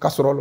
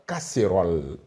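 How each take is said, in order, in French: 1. La deuxième voyelle est un e simple, faible. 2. La deuxième voyelle est un son é fermé. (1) "j'avais la prononciation euh, correcte" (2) "on ne prononce pas"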